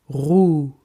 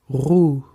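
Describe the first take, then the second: No difference in how they are said.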